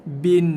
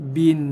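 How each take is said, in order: No difference in how they are said.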